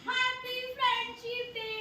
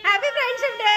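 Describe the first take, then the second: First: Shy soft greeting. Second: Said out loud. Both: Real, not acted. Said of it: "बोलो, happy friendship day बोलो".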